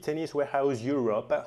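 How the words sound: It is said in an exaggerated English accent. "prendre un accent anglais complètement délirant"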